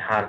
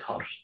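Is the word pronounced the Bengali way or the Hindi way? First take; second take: Hindi; Bengali. First: It is said with a Hindi-style vowel. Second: It is said with a Bengali-style vowel. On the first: "Hindi উচ্চারণে হার রোজ বলি" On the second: "বাংলায় বলে হর"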